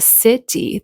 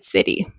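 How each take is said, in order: First: The middle T is a clear, released T. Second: The middle T is a quick flap sound. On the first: "They didn't say city" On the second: "they said city"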